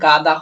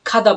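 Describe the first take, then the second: First: The word begins with a voiced g sound. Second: The word begins with an aspirated kh sound. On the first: The speaker calls it wrong. "ব্যাপারটা গাদা হলেও" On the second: The speaker calls it right. "এটাকে আমরা খাদা বলবো"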